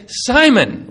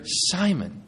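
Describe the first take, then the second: First: Simon called out high and loud; sharp rebuke. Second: Calling the name quietly, disappointed; gentle reproach. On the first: Jesus stopping Peter's sword strike, sharp loud call. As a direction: snap the name to stop him cold. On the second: Jesus waking a sleeping Peter, soft reproachful call. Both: Acted.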